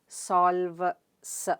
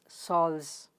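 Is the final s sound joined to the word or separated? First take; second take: separated; joined. First: The final s is split off after a break. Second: The final s is blended into the word. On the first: The speaker calls it wrong. "You don't say solve, s, right?" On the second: The speaker calls it right. "It's solves"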